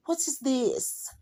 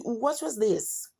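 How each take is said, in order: First: Higher, slow, put-on kid question; imitating kids. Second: Higher, drawn-out puzzled question; mock a kid asking, high and slow; imitating future kids. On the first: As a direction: drag it out like a puzzled child. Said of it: "This is how they speak". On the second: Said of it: "this is how they're gonna be speaking".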